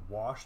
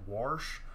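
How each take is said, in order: First: It is said without an added R sound. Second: It is said with an R after the vowel. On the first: "instead of saying wash" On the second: "they will add an R to it right after the A"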